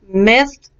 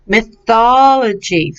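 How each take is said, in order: First: "Mythology" split into myth, ol, o, gy; syllable by syllable. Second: "Mythology" as one word, clear THOL; joined-up pronunciation. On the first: Teacher breaks down a troublesome word, syllable by syllable. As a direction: separate each syllable of "Mythology". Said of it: "people had trouble with last class". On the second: Teacher prompts student to repeat, whole-word pronunciation. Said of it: "Let me hear you". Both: Shown as a demonstration.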